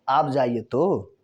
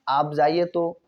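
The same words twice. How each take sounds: First: It is said in a changed, pointed tone. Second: It is said in a plain, straightforward tone. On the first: "उसी का थोड़ा लहजा बदल दिया" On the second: "बोल दिया गया आप जाइए तो सीधा शब्द हो गया"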